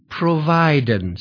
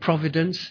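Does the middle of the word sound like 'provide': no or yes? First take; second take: yes; no. First: The word is said so 'provide' is heard. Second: The word is said in its usual way. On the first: "if we change the pronunciation a little bit" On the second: "instead of saying providence"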